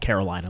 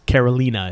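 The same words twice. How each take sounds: First: The name is pronounced with an American English accent. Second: The name is pronounced with a Spanish accent. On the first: This is the name of the US states. "it's spelled like Carolina. Like we have North and South Carolina" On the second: This is the name of the city in Puerto Rico. "is how you say it in Puerto Rico"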